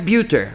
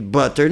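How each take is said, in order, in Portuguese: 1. A primeira vogal soa como a letra U. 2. A primeira vogal é um 'uh' curto. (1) "butter não é butter" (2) "porque tem dois T's"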